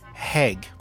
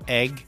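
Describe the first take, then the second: First: The word starts with an added h sound. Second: The word starts directly with a vowel sound. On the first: The speaker calls it wrong. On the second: The speaker calls it right.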